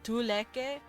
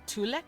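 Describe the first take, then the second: First: The word ends with a pronounced final vowel. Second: The word ends on a consonant, final vowel dropped. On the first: "technically tuleke" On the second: "they just kind of forget to pronounce the E"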